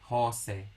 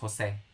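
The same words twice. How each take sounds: First: The stress is on the first syllable. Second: The stress is on the last syllable. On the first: The speaker calls it wrong. "the accent falls on the second to the last syllable" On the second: The speaker calls it right. "the name is Jose"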